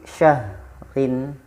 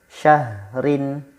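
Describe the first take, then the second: Both takes have the same delivery.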